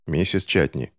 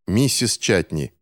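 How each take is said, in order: First: A touch of gloom; gloomy. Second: Slower, more insistent repeat; firmer, drawn-out repeat; louder, repeated. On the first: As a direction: say the name grimly. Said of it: "хмуро сказал Финч". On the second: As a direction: call the name again to get attention. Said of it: "громче повторил мальчик". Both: A narrator's reading.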